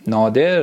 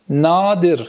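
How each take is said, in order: First: "نادر" as nâder, with e; Persian pronunciation. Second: "نادر" as nadir, with i; Turkish pronunciation. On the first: Teacher giving students the Persian word, lower "نادر" as nâder. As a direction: say "نادر" lower, as naa-der. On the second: Teacher modelling the Turkish word for students, "نادر" as nadir. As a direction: say "نادر" slowly as naa-dir. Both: Shown as a demonstration.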